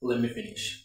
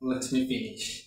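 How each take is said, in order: First: The words are blended into one reduced word. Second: Both words are said fully and separately.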